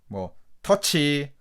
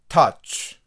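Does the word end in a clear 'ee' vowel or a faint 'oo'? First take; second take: clear ee; faint oo. First: The word ends with a clear added 'ee' vowel. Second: The word ends with a faint 'oo'-like vowel. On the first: The speaker calls it wrong. "한국말식으로 ... 이 발음을 넣어서 콩어리식으로 발음하지 마시고" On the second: The speaker calls it right. "약간 우 모음이 강하게는 아니고 약하게 붙여준다"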